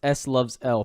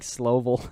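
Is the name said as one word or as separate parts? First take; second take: separate parts; one word. First: It is said as three separate parts. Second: It is said run together as one word. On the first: The speaker calls it right. "I think it's pronounced S loves L" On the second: The speaker calls it wrong. "because I was like Slovel"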